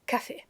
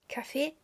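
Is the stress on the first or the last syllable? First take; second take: first; last. First: The stress is on the first syllable. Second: The stress is on the last syllable. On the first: "café with the pronunciation on the A" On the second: "Café with the pronunciation on the last E because it's French"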